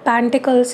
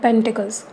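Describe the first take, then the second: First: The first vowel is 'a' and the middle 'i'. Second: The first vowel is 'e' and the middle 'i'. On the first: The speaker calls it wrong. "नहीं होता है" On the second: The speaker calls it right. "पेंटिकल्स होता है"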